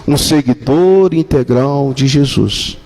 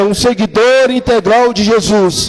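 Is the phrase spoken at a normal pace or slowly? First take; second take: slowly; normal. First: The phrase is spoken slowly and deliberately. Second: The phrase is spoken at a normal pace.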